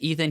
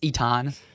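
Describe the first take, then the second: First: The name is said in the usual English way. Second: The name is said in a made-up Polish way.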